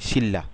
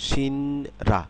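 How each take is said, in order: First: Said as one word with a double L. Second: Syllables said apart, with an N then R. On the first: "কিন্তু হবে কি" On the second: "syllable অনুসারে উচ্চারণ করলে"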